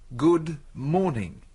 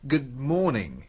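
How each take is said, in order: First: It is said slowly. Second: It is said fast.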